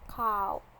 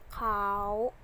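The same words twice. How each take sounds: First: The word is said in tone three. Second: The word is said in tone five. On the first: "Tone three" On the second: "Tone five"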